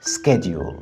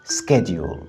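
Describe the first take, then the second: First: It is said in an American accent. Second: It is said in an American accent.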